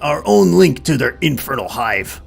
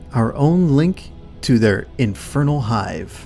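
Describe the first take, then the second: First: It is read in a put-on character voice. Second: It is read in the speaker's ordinary voice. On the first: "I'll do it as his voice" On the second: "I was just reading it the best I could"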